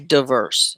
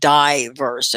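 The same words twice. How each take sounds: First: The first vowel is a short 'ih' sound. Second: The first vowel sounds like 'eye'. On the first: The speaker calls it wrong. "You don't say diverse" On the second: The speaker calls it right. "You say it like eyes"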